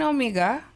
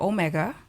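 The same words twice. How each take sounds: First: The name is pronounced in a non-American way. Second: The name is pronounced in an American way.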